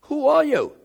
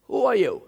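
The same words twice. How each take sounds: First: Higher and louder, who hammered; ringing question. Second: Who pushed, a little louder; insistent repeated who are you; pressing question. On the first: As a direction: lift it into a ringing cry. Repeats question, climax. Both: Acted.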